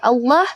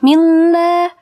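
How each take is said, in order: First: The lam is thick with an O-like vowel. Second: The lam is thin with a clear A vowel. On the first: "kalau vokalnya O" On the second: "jadi vokalnya menjadi A"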